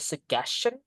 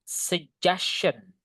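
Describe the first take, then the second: First: The middle consonant is not a j sound. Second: The middle consonant is a j sound. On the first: The speaker calls it wrong. "we couldn't say suggestion" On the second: The speaker calls it right. "The correct pronunciation is dibaca J"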